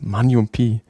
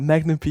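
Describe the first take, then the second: First: The g sound in the title is dropped. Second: The g sound in the title is pronounced. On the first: This is how the colleague said the title. The speaker calls it wrong. "er hat mega lustige Art, Zeug auszusprechen" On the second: This is the title that was meant. The speaker calls it right. "er meint Magnum P.I"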